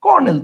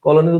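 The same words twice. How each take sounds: First: কর্নেল said as "kor-nel", pitched high; high, falling কর্নেল in two syllables; correct spoken form. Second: কলোনেল as three syllables, "ko-lo-nel"; literal spelling pronunciation. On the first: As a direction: say an r in place of "lo" in কর্নেল. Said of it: "আমরা উচ্চারণ করি". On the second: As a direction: sound the written l in কলোনেল. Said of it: "আমরা তো আর কলোনেল উচ্চারণ করি না". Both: Shown as a demonstration.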